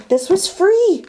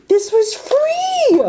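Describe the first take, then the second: First: High, bright emphasis on free; excited exclaim. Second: Very high slow squeal on free; squealed disbelief. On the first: Telling viewers the haul was free, high excited emphasis. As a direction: stress free with rising delight. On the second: Telling viewers it was free, very high slow squeal. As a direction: stretch it into a thrilled squeak. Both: Real, not acted. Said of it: "and this was all free".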